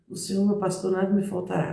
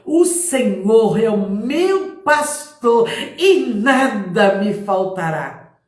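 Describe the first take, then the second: First: It is said timidly, with little mouth movement. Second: It is said confidently, with clear articulation.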